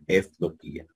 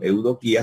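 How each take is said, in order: First: The word begins with an 'ef' sound. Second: The word begins with an 'eu' sound. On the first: "sino efdoquía" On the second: "no diríamos eudoquía"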